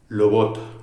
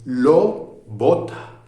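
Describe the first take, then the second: First: The words are joined and the lips only approach. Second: The words are separated and the lips close fully. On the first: "En ese caso los labios se acercan, no se cierran" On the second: "Si lo digo parándome, separo los sonidos y entonces pronuncio de manera diferente"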